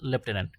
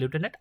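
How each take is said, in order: First: The first syllable sounds like 'lef'. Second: The first syllable sounds like 'loo'. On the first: This form is used in British English. "British ইংলিশে বলে লেফটেন্যান্ট" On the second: This form is used in some varieties of English. "কোনো কোনো ইংলিশে বলে লিউটেন্যান্ট"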